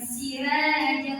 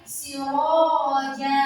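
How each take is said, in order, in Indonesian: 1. Bunyi r dan vokalnya ringan dan tipis. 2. Bunyi r dan vokalnya berat dan tebal. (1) "Bukan siraja" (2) "tapi siroja"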